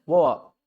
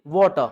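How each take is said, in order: First: "वाटर" as "wo-uh", no t or r; British glottal "वाटर", two open vowels; British dropped t. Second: "वाटर" as "waw-tuh", t sounded; crisp t in "वाटर", no final r; loud "वाटर" ending on a short uh; standard r-less form. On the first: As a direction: swallow the t in "वाटर". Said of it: "Britain में क्या बोलते हैं". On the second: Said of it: "actual pronunciation". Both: Shown as a demonstration.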